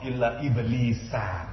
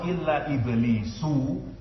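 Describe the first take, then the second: First: The last word ends with an 'a' vowel. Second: The last word ends with a 'u' vowel. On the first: Iblis is not one of the angels. The speaker calls it right. "Baca nasab illa iblisa" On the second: Iblis is counted among the angels. The speaker calls it wrong. "maka iblis termasuk malaikat"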